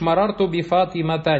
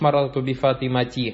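First: The last word ends in an a vowel. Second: The last word ends in an i vowel. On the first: The speaker calls it right. "И ты говоришь" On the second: The speaker calls it wrong. "не говоришь"

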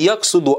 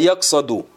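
First: The vowel after the s is u. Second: The vowel after the s is a. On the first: The speaker calls it wrong. "Не яксуду" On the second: The speaker calls it right. "а яксаду"

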